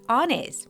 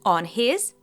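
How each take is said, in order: First: The h sound is dropped, linking the words. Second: The h sound in his is clearly pronounced. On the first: "the first consonant is often dropped" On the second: "On his becomes"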